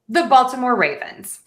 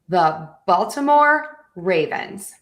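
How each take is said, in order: First: It is said smoothly, like normal speech. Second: It is said carefully, word by word. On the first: "a little more naturally" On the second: "let's put it all together"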